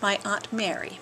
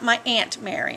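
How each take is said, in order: First: Aunt sounds different from the insect ant. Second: Aunt sounds just like the insect ant. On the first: The speaker calls it right. "it may sound stuffy, but there's a U in it, so it's aunt" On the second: The speaker calls it wrong.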